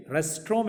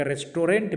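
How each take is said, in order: First: रेस्टोरेंट as "res-trom", with a silent T; रेस्टोरेंट in two syllables; correct restaurant. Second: रेस्टोरेंट as "res-to-rent", with a sounded T; रेस्टोरेंट in full, with the T; wrong restaurant. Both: Shown as a demonstration. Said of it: "मत जाइएगा".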